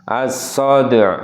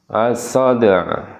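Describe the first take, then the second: No difference in how they are said.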